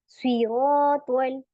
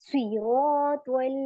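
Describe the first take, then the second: The two takes are said the same way.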